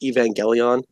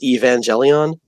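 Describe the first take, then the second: First: The G is said as a hard G. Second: The G is said as a soft G. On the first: The speaker calls it right. "it's a hard G" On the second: The speaker calls it wrong. "somebody on a stream pronounced"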